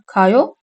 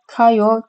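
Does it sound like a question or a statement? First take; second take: question; statement. First: It has emphasized question intonation. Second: It has flat statement intonation. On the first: Do you go? "gidiyor musun gider misin" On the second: I go. "gidiyorum giderim"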